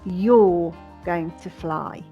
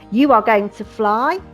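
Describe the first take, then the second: First: The subject and verb are said contracted. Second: The subject and verb are said in full. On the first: "the contracted form" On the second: "the long form"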